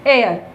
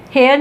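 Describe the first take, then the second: First: एयर with a silent h, starting on the vowel; correct pronunciation. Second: हेयर with a sounded h at the start; wrong pronunciation. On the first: Teacher to students, modelling silent-h एयर. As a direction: say एयर with no h sound. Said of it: "इसको एयर बोलेंगे". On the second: Teacher to students, showing mistaken हेयर with h. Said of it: "हेयर नहीं बोलेंगे". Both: Shown as a demonstration.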